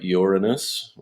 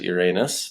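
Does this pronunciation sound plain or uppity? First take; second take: uppity; plain. First: The name is said in an uppity, posh-sounding way. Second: The name is said in a plain, unpretentious way. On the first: The speaker calls it wrong. "I don't sound too uppity like Uranus" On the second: The speaker calls it right. "I prefer to uh, to to pronounce it Uranus"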